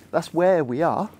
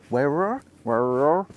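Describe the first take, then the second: First: Said in the usual way. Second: Broad Hampshire burr, words slurred together; Hampshire accent. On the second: Shown as a demonstration. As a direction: play up the rural Hampshire R sounds. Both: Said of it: "That's my Hampshire accent coming out".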